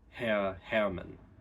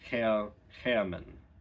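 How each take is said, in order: No difference in how they are said.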